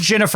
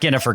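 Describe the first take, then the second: First: The first name begins with a soft G. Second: The first name begins with a hard G. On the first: The speaker calls it right. "I think it's a soft G in her first name. It is" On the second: The speaker calls it wrong. "It's not"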